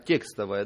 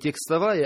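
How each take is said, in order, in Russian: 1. Ударение на первом слоге. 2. Ударение на втором слоге. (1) "То есть на «е» ударение" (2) "Не текстовая"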